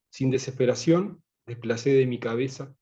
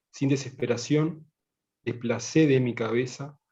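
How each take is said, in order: The two takes are said the same way.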